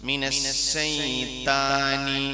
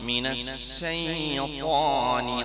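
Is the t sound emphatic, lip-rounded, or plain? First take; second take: plain; emphatic. First: The t is a plain, light t sound. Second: The t is heavy and emphatic, without rounding. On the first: The speaker calls it wrong. "ഇത് രണ്ട് രൂപം തെറ്റാ" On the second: The speaker calls it right. "മൂന്ന് രൂപത്തിൽ ഞാൻ പറയുന്നുണ്ട്"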